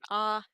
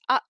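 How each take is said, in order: First: The vowel fades out without a sudden stop. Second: The vowel cuts off sharply with a glottal stop. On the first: "It doesn't just end in an ah" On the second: "an ah that abruptly cuts off with that glottal stop"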